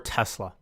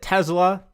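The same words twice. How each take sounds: First: The middle consonant is a hissing s sound. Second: The middle consonant is a buzzing z sound. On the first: "Is it with an S?" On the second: "Is it with a Z?"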